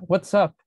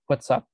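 First: Greeting a friend. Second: Friend answering back. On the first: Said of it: "Si dijera". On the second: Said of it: "y mi amigo me diría". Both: Shown as a demonstration.

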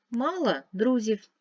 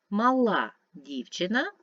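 First: Мала stressed at the start, МА-ла; stress on first syllable. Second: Мала stressed at the end, ма-ЛА; stress on last syllable. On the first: Teacher contrasting stress for pupils: МА-ла. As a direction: say мала as МА-ла, meaning had. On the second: Teacher contrasting stress for pupils: ма-ЛА. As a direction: say Мала as ма-ЛА, meaning small. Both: Shown as a demonstration. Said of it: "змінюється значення слова".

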